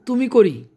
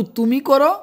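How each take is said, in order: First: করি said with the ending ি, the deliberate wrong form; wrong verb form. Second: করো said with the ending ো, the corrected form; correct verb form. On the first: (ভুল রূপ করি, শেষে ই) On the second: (সঠিক রূপ করো, শেষে ও) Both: Shown as a demonstration. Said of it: "এটা হবে না".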